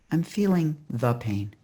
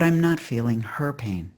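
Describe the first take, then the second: First: THE said in its full form, "thee" or "thuh", and weighted; "the" set apart before "pain"; stress on the. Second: HER picked out against the rest; "her" stressed, then "pain" falling away. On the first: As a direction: lean on "the" as the contrast word. Contrasts the pain with her pain. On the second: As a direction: lean on "her" to mark whose pain. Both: Acted.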